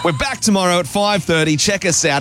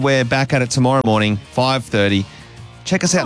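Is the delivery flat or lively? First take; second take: lively; flat. First: It is said with lively energy and spirit. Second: It is said flatly, with little energy.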